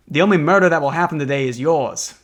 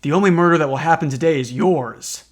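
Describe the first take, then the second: First: A hint of an old-timey mobster; lightly voiced gangster growl. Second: Said in the usual way. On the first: Shown as a demonstration. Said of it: "old-timey mobster voice, so I'll read you that line". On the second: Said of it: "I forgot that Forensic has, like, a canonically, like, old-timey mobster voice".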